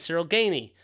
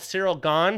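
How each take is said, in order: First: The surname is said as two syllables. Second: The surname is said as one syllable. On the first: The speaker calls it right. "but it's" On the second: The speaker calls it wrong. "Like I used to call"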